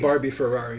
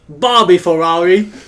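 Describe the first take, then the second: First: It is said in the speaker's normal accent. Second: It is said in an Australian accent.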